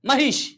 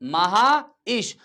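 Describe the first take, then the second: First: The word is said quickly, vowels run together. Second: The word is said slowly, vowels kept apart.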